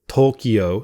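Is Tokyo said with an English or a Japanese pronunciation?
English. The word is said with an English pronunciation. "I'll say Tokyo"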